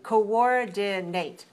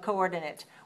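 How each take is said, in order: First: The last syllable sounds like 'ate'. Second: The last syllable sounds like 'it'. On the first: It is a verb meaning to organize together. "If we want a verb, we say coordin- coordinate" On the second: It is a noun naming a location. "the it and ate sounds are different"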